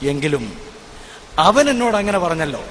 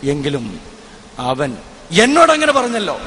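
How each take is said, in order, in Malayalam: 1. Stress വരുന്നത് അവൻ എന്ന വാക്കിലാണ്. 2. സ്ട്രെസ് വരുന്നത് എന്നോട് എന്ന വാക്കിലാണ്. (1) "അവൻ എന്നുള്ള ഭാഗത്ത് ഞാൻ സ്ട്രെസ് ചെയ്തുകൊണ്ട്" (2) "രണ്ടാമതും അതേ കാര്യം ഞാൻ ഊന്നിപ്പറയുന്നു"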